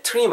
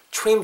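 First: "trim" with a t sound, like Korean "트림"; discouraged pronunciation. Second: "trim" starting with a "chu" sound; recommended pronunciation. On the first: Teacher showing learners what to avoid, "trim" as "teu-rim". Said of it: "trim 하지 마시고". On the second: Teacher showing learners the better way, "trim" as "chrim". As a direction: say "trim" like "chwim". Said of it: "trim 정도로 발음해주시면 훨씬 더 나을". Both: Shown as a demonstration.

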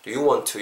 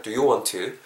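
First: "want to" run together with a single t; "want to" linked as one chunk; merged t sound. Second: "want to" with both t's said separately; careful, unmerged "want to"; both t's sounded. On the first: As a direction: drop the doubled t in "want to". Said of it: "이렇게 발음이 된다라는 거". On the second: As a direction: say "want to" as two words, releasing each t. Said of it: "굳이 다 발음하실 필요 없이". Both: Shown as a demonstration.

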